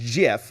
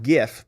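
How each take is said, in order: First: The word begins with a soft J sound. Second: The word begins with a hard G sound. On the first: The speaker calls it wrong. "for those of you who seem to love Jif" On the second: The speaker calls it right. "Graphics, G, not J"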